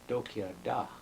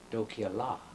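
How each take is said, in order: First: The last word begins with a D sound. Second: The last word begins with an L sound. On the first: This is the eastern Santee way of saying it. "we talk with a with a D" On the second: This is the western Oglala way of saying it. "they talk with an L"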